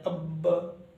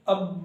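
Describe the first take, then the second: First: The final b is released with a bounce. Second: The final b stops flat without release. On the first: The speaker calls it right. "Last में टक्कर खाकर कैसे अलग हो जाते हैं" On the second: The speaker calls it wrong. "अब इस तरह नहीं पढ़नी है"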